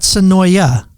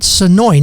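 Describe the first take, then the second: First: The name ends with an extra 'ah' vowel. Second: The name ends without a final vowel. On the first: The speaker calls it wrong. "not Sonoya" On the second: The speaker calls it right. "Sonoy, not Sonoya"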